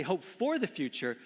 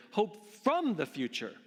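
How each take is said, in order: First: "for" lifted in a raised preaching voice; emphatic "for", set up for contrast; stress on for. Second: "from" punched high in contrast; emphatic, raised "from"; stress on from. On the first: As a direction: punch the word "for". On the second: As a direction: hit the word "from" hard. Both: Real, not acted.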